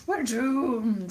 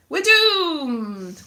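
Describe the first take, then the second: First: Subdued echo of comic despair; understated mock-gloomy refrain; mock doom echo. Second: High, drawn-out mock wail; theatrical cry of doom. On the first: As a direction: repeat the doom with less force, still drawn out. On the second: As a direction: wail it in comic despair, stretching DOOMED. Mock lament over Brexit bell.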